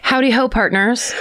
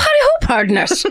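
First: It is said in the speaker's usual accent. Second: It is said in a put-on Irish accent.

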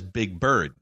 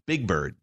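First: The stress falls on the word bird. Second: The stress falls on the word big. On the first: "He puts the emphasis on bird" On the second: "So I say it like Declan does"

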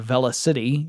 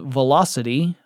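First: It is said as two parts, velo and city. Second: It sounds like the ordinary word velocity.

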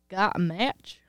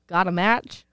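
First: It is said in a country accent. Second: It is said in a plain voice.

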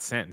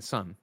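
First: The syllable is said with a short 'i' vowel. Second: The syllable is said with an 'uh' vowel. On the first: The speaker calls it wrong. "Not sin" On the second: The speaker calls it right.

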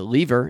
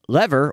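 First: It is said with a British pronunciation. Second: It is said with an American pronunciation.

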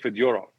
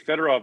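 First: The stress is on the middle syllable. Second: The stress is not on the middle syllable. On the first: This is how the name is said in Russian. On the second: This is the North American way of saying it.

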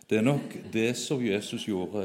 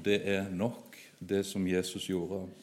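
First: It runs on without a break after 'nok'. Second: There is a short break after 'nok'. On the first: That is probably what Jesus did. The speaker calls it wrong. "leste det med feil tonefall" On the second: What Jesus did is enough. The speaker calls it right. "manglet et komma"

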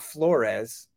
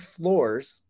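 First: The name does not sound like floors. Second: The name sounds like the word floors. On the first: The speaker calls it wrong. "not Flores" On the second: The speaker calls it right. "it's Zane Flores"

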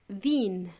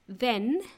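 First: The vowel is raised toward an ee sound. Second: The vowel is a plain short e sound. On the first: "they would say then" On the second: "the word then"

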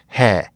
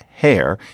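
First: The final r sound is dropped entirely. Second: The final r sound is clearly pronounced.

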